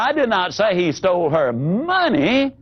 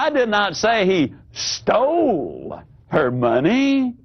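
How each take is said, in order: First: The word money carries the stress. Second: The word stole carries the stress.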